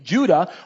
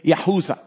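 First: The name begins with a J sound. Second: The name begins with a Y sound. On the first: This is the English form of the name. "we don't have a J sound in Hebrew" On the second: This is the Hebrew form of the name. "what I would actually say"

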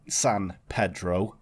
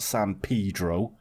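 First: Pedro is said the Spanish way, like 'peh'. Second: Pedro starts like 'pee', as in 'paedo'. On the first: It names the Spanish word for Peter. The speaker calls it right. "it is pronounced San Pedro" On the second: It sounds like a slang word for a child abuser. The speaker calls it wrong. "and not San Pedro, as some people on YouTube would have you believe"

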